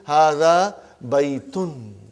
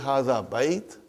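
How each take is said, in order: First: The final case ending on the noun is pronounced. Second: The final case ending on the noun is dropped. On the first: Full reading that shows the grammar. "we will pronounce everything" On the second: Everyday speech that stops before the ending. "they are not very sure about the endings"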